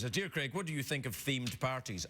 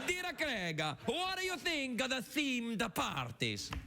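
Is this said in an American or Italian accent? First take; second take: American; Italian. First: It is spoken in the speaker's ordinary accent. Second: It is spoken with a put-on Italian accent. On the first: "for anyone who doesn't speak Italian, what she said is" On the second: "I'll have to do it in my Italian accent"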